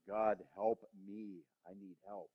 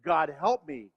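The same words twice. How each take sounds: First: Slow, soft, pleading prayer; desperate quiet plea. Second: Said in the usual way. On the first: Real, not acted. The preacher begging God for help, slow and soft. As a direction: whisper it to God, drawn out.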